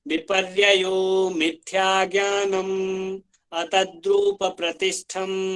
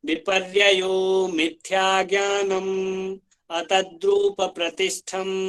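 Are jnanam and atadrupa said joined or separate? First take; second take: separate; separate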